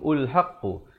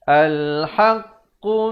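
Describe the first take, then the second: First: The word begins with a u vowel. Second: The word begins with an a vowel. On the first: The speaker calls it wrong. "ataupun ulhaqqu" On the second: The speaker calls it right. "Yang betulnya al"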